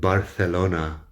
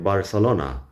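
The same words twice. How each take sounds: First: The c is said with a th sound. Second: The c is said with an s sound. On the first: "they're saying Barcelona with the Spanish lisping" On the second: "the C is the S sound because they don't do the Spanish lisp"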